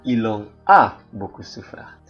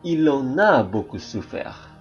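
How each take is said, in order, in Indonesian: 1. Kata-katanya diucapkan terpisah tanpa liaison. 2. Kata-katanya disambung dengan liaison.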